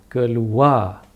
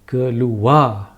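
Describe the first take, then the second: Both takes have the same delivery.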